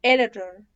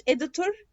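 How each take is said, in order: First: "editor" with T softened to D, reduced ending; flapped editor. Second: "editor" with clear "-tur" ending, questioning rise; full-vowel editor. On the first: Teacher giving American example, flapped T. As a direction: say editor as "ededer". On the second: Teacher voicing a learner's question, clear T editor. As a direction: say editor as "editur?". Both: Shown as a demonstration. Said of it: "عادي الاتنين صح".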